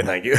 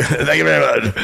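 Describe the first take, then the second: First: Said in the usual way. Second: Louder emphatic thanks. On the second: Retold or imitated. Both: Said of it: "and I go".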